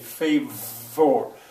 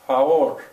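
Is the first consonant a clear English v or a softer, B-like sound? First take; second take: clear v; softer, B-like. First: The v is a clear sound with teeth on lip. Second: The v is a soft sound between v and b. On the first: "like we would say" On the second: "it's in between"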